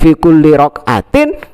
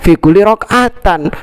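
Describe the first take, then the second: First: The last word ends with an 'in' sound. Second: The last word ends with an 'an' sound. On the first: The speaker calls it right. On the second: The speaker calls it wrong.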